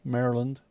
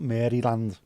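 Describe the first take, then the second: First: It is said like the name of the US state. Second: It is said like the name of a ballroom. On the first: The speaker calls it right. "Try and make sure I say that right every time" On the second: The speaker calls it wrong. "Not Maryland, which makes it sound like some kind of ballroom"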